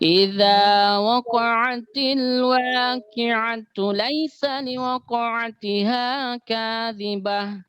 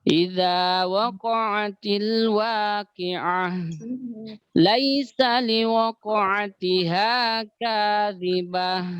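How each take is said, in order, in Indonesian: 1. Langsung lanjut, ayat berakhir dibaca tu. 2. Berhenti setelah ayat pertama, berakhir dengan h. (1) "dibaca bersambung dengan ayat berikutnya, maka tetap dibaca tu" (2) "Saya versi berhentinya"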